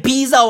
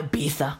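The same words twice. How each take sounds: First: Said in the usual way. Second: Ibiza with th for the z; th pronunciation. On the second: Shown as a demonstration. Puzzling over Spanish names, Ibiza said with a th. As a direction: say Ibiza as "Ibitha". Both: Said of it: "Is it Ibiza or Ibiza?".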